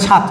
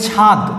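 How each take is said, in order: First: The word ends in a voiceless t sound. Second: The word ends in a voiced d sound. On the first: "অনেকে বলে ছাদ, ছয় আকার তো ছাদ" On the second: "আমরা বলি ছাদ, ছয় আকার দ ছাদ"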